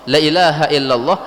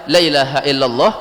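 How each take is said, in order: First: The first vowel 'la' is short. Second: The first vowel 'la' is short.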